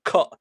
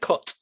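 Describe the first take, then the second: First: The final T sound is cut off. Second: The final T sound is fully pronounced. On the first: "there I said cut" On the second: "instead of cut"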